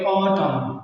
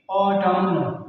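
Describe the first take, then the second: First: ऑटम ending on m, the n silent; correct silent n. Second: ऑटम said with the final n sounded; wrong pronunciation. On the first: Teacher giving students the right form, ऑटम with a silent n. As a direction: say ऑटम cleanly with no n. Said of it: "बल्कि इसको पढ़ेंगे ऑटम". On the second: Teacher showing the error, ऑटम with an n. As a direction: sound the n at the end of ऑटम as the mistake. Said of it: "ऐसे नहीं पढ़ेंगे". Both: Shown as a demonstration.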